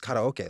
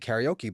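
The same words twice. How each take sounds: First: It is said the local Hawaiian way. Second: It is said the common mainland American way. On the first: "growing up in Hawaii, it was karaoke" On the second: "people say karaoke"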